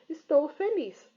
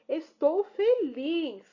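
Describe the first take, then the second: First: It is said flatly, as a plain statement. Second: It is said with excited, emotional exclamation.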